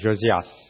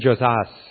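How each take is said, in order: First: The name is pronounced the French way. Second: The name is pronounced the English way. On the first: "That sounds better. That's French" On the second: "I don't know if I pronounce it"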